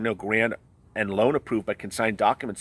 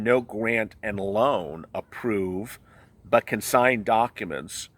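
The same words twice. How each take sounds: First: It is read at a quicker pace. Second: It is read at a slower pace.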